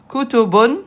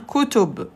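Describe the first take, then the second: First: The word ends with a final 'un' sound. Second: The word ends on the consonant 'b'. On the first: The word is not at the end of a sentence. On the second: The word ends the sentence.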